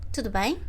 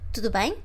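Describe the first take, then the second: Both takes have the same delivery.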